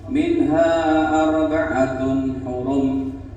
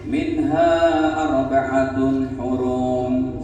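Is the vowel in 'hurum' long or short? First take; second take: short; long. First: The vowel in hurum is short, one beat. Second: The vowel in hurum is drawn out long. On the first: The speaker calls it right. "tajwidnya harus satu ketukan tuh" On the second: The speaker calls it wrong. "Tidak boleh ... Salah itu"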